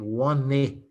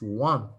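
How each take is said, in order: First: An extra vowel is sounded at the end. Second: The word ends without an extra vowel. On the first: The speaker calls it wrong. "in English you don't say one E" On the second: The speaker calls it right. "it's one. You have a silent E"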